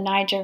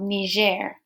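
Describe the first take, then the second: First: Niger is pronounced in a British way. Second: Niger is pronounced in a French way. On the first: It names the river in British usage. "in the British pronunciation" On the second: It names the country colonized by France. "because it was colonized by the French, different pronunciation for a similar word"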